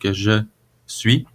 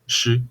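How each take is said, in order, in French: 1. Cela se dit comme deux mots pleins et séparés. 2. Cela se fond en une seule syllabe courte. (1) "à l'écrit" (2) "devient euh, chu"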